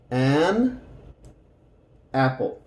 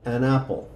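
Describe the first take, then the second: First: An, a pause, then apple; separated an and apple. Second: Said in the usual way. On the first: Shown as a demonstration. (separado: An, pausa, apple) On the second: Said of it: "Y esa suena como junto".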